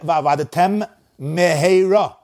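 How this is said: A short pause separates the two words. Both mem sounds are heard separately. The speaker calls it right. "A little pause"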